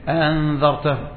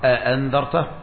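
First: The second glottal stop is softened. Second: Both glottal stops are fully pronounced. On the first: "سهل الهمزة الثانية" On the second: "عليك بتحقيق الهمزتين"

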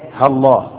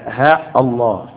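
First: A short 'ha' runs straight into 'llah' without a stop. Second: A long 'ha' followed by a glottal stop before 'Allah'. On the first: "أن تحذف ألفها والهمزة من اسم الله، يبقى إيه؟ هالله" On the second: "يعني تقول همزة قاطع، يبقى ها الله"

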